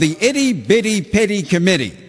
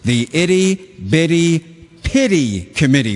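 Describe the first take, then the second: First: It is said at normal fast speed. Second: It is said slowly and clearly.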